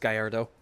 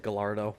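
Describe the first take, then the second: First: The double L is said as a Y sound. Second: The double L is said as an L sound. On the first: The speaker calls it right. "but it's Gallardo" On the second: The speaker calls it wrong. "I used to always just say Gallardo"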